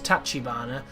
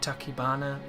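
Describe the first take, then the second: First: The second syllable is said as 'chi'. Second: The second syllable is said as 'ki'. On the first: The speaker calls it right. "it's Tachibana" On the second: The speaker calls it wrong. "for some reason I want to say it differently"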